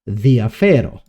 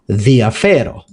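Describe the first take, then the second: Both takes have the same delivery.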